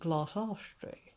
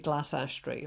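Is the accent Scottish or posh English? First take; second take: posh; Scottish. First: It is said in a posh English accent. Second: It is said in a Scottish accent.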